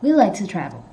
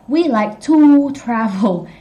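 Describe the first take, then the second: First: The word 'to' is weakened and reduced. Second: The word 'to' is said fully and clearly. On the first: "He said we like to travel" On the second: "He didn't say we like to travel"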